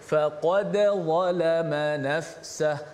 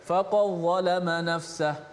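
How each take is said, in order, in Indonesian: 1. Bunyi d dibaca jelas sebelum z. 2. Bunyi d melebur ke dalam z yang mengikutinya. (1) "dal itu dijelaskan mati" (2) "Tak boleh kita baca ... Kalau kita tak jelaskan dal mati"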